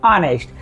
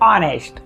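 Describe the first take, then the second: Both takes have the same delivery.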